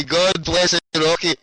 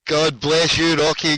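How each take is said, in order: First: A slow, relishing repeat of the blessing; slow drawn-out blessing. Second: Said in the usual way. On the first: Real, not acted. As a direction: stretch each word out slowly.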